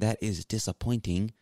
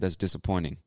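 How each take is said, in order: First: The T in disappointing is clearly pronounced. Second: The T in disappointing is dropped. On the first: "we don't really pronounce the T like a hard T" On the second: "So there's no T in that word when I say it"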